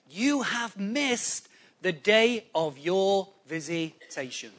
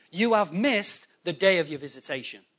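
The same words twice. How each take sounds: First: Slow, word-by-word retold lament. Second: Said in the usual way. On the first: Preacher quotes Jesus crying over Jerusalem, slow solemn lament. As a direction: draw out each word, "vi-si-ta-tion" in pieces. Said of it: "he's crying and he says".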